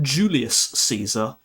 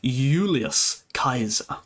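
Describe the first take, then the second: First: The first word begins with a J sound. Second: The first word begins with a Y sound. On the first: The speaker calls it wrong. "So it's not" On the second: The speaker calls it right. "it's pronounced as Y"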